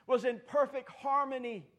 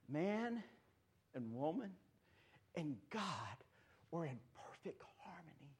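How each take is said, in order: First: Said in the usual way. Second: Breathy hushed whisper. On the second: Acted. Pastor hushing the congregation, a sudden whisper. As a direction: drop to a secret hush. Drops to hush mid-sermon.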